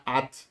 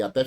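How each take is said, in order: First: ATE stressed on A, weak ending almost swallowed. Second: ATÉ stressed on the final open TÉ. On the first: Teacher showing até without its accent, stressed A in "at". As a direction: say "at" as A-te, weight on the first syllable. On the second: Teacher naming the accented preposition, stressed TÉ in "até". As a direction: put the weight on the last syllable of "até". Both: Shown as a demonstration. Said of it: "Se você tirar o".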